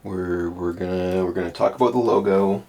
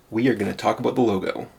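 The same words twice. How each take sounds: First: Said in the usual way. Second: Fast, punchy YouTuber intro voice. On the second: Shown as a demonstration. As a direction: hype it up like a YouTube host. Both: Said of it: "My best YouTuber voice".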